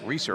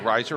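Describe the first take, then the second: First: The first vowel sounds like 'ee'. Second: The first vowel sounds like 'eye'. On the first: "I've been saying Riser. I don't th- think that is correct" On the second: "I've been saying Riser"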